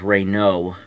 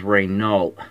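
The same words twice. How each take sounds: First: The final consonant sounds are silent. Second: The final consonant sounds are pronounced. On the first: The speaker calls it right. "The correct word is Renault. So N A U L T is silent" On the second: The speaker calls it wrong. "people mispronounce that word as Renault"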